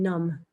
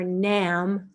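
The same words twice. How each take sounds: First: The vowel sounds like the one in 'numb'. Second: The vowel also differs from the one in 'numb'. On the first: The speaker calls it right. "It's like more like N U M B in English" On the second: The speaker calls it wrong. "So it's not Nam or Nam"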